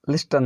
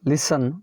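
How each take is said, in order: First: The t sound is pronounced. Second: The t sound is silent. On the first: The speaker calls it wrong. "नहीं है" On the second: The speaker calls it right. "एस टी टी silent"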